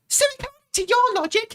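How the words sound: It is read in a put-on character voice.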